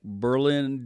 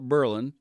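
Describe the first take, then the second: First: It is said like the German capital's name. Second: It is said in the local Ohio way. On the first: This is how the German city is named. "pronounced like Berlin, Germany" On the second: This is how locals name the Ohio town. "but we call it Berlin"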